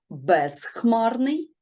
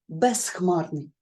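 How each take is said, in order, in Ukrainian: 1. Приголосний перед х — дзвінкий з. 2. Приголосний перед х — глухий с. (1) "Ми можемо вимовити чітко безхмарний" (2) "іноді у вимові ми можемо чути тут безхмарний"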